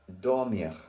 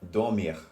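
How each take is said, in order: First: The final syllable is stressed only lightly. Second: The final syllable is stressed too heavily. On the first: The speaker calls it right. "Voilà, c'est bon" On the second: The speaker calls it wrong. "I stress on things that not necessarily you need to stress on"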